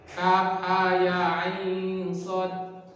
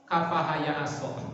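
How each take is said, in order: First: Each letter name is said separately. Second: The letters are blended into one word. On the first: The speaker calls it right. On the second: The speaker calls it wrong.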